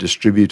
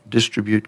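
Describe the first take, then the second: First: The stress is on the second syllable. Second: The stress is on the first syllable.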